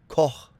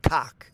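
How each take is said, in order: First: The name is said the German way. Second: The name is said in an Americanized way. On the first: The speaker calls it right. "This is going to be Koch" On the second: The speaker calls it wrong. "this is not Koch"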